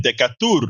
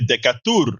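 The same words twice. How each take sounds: First: It is read letter by letter, Spanish style. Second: The same.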